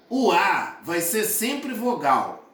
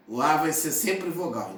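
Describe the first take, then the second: First: Slow and clear. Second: Said in the usual way. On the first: Shown as a demonstration.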